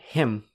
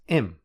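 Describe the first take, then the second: First: The word begins with an h sound. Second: The word begins without an h sound. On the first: "the h in him" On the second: "often becomes im"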